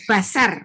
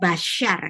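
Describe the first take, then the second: First: The middle consonant is a plain s sound. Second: The middle consonant is an sh sound. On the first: The speaker calls it right. "Ini basar" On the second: The speaker calls it wrong. "bukan basyar"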